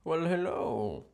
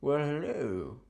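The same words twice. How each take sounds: First: Slower, higher smarmy "well, hello"; a slower hammed-up lounge-lizard hello; suave thin-mustache voice. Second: Smarmy "well, hello" from a pencil-mustache charmer; a hammed-up lounge-lizard hello; suave thin-mustache voice. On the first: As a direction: draw out the greeting like a cartoon smoothie. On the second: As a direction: purr the greeting like a cartoon smoothie. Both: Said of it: "Who would talk like that?".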